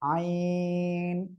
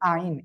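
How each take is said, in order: First: The vowel is drawn out long. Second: The vowel is short, not drawn out. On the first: The speaker calls it right. "আইন একটু টেনে পড়তে হবে এমন" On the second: The speaker calls it wrong. "অনেকের কিন্তু আইন এমন হয়ে যায়"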